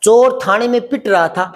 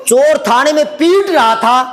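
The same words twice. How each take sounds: First: "पिट" with a short, quick i; short vowel. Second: "पीट" with a slow, drawn-out ee; long vowel. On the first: Teacher contrasts being beaten with beating, short i in "पिट". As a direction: keep the i in "पिट" brief, T right after P. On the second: Teacher contrasts beating with being beaten, long ee in "पीट". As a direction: stretch the ee in "पीट" well before the T. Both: Shown as a demonstration. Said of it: "फर्क पड़ रहा है कि नहीं".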